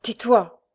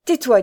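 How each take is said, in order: First: Higher, louder urgent interruption; frightened hushing. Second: High, much louder repeated command; insistent frightened order. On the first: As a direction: cut him off in alarm. (injonction effrayée, urgente) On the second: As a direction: insist urgently that he stop. (ordre insistant, haut et fort) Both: A narrator's reading. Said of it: "lui dit Thérèse effrayée".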